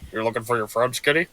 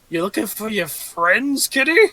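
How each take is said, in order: First: It is said in a put-on character voice. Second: It is said in a plain voice.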